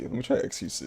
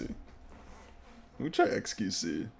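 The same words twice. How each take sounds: First: Said in the usual way. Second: Drawn-out whispered "Let me try X Q C"; slow whisper. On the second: Shown as a demonstration. Streamer to the game, choosing xQc in a slow whisper. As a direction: breathe it out slowly, almost secretive. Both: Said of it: "I don't know why I'm so jolly".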